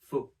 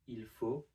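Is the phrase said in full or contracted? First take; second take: contracted; full. First: The pronoun is dropped; only faut is said. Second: The phrase starts with the pronoun il.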